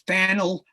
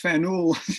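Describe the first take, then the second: First: It is said to rhyme with panel. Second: It is said not rhyming with panel. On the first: "rhymes with panel" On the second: "the second one was"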